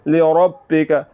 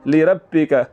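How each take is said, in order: First: The r is said heavy and full. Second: The r is said thin and light. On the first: The speaker calls it right. "रा को ऊपर पढ़ना है" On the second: The speaker calls it wrong. "तो ये रा बरीक पढ़ा जा रहा है"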